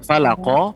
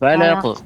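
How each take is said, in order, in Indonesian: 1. Berakhir dengan vokal o penuh. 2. Berakhir hanya dengan pantulan ringan yang bergema. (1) "juga bukan falaqo" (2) "pantulan saja"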